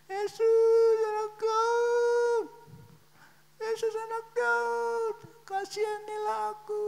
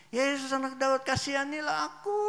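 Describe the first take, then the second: First: Very high, drawn-out imitation of wailing; tearful shouting. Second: High pleading call; shouting. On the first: Blind man begs Jesus for mercy, crying as he shouts. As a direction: wail out a plea as if weeping. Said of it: "dari nadanya dia itu sambil nangis". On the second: Retold or imitated. Blind man begs Jesus for pity, shouting. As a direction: call out for mercy, voice raised. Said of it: "dia teriak".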